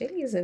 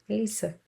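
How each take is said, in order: First: The s is voiced, sounding like z. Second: The s is voiceless, sounding like s.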